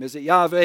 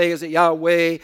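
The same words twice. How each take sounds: First: "Yahweh" said with a V, YAH-vay; V pronunciation. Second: "Yahweh" said with a W, YAH-way; W pronunciation. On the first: Preacher offering possible pronunciations of God's name, "Yahweh" with a V sound. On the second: Preacher offering possible pronunciations of God's name, "Yahweh" with a W sound. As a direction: keep a clear W glide in "Yahweh". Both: Shown as a demonstration. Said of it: "pronunciation of God's personal name".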